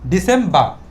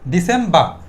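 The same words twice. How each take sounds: Both takes have the same delivery.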